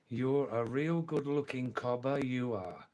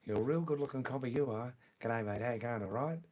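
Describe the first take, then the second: First: Word-by-word careful delivery. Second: Fast, broad Australian patter; Australian accent. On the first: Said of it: "I'll say it slowly this time". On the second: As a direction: run the words together in Australian. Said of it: "in Australian accent also". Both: Shown as a demonstration.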